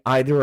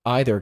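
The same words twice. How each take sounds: First: "either" as EE-ther; long-E pronunciation. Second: "either" as EYE-ther; long-I pronunciation. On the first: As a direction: open "either" with an ee sound. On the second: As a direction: open "either" with an eye sound. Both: Shown as a demonstration. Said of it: "say either or either differently".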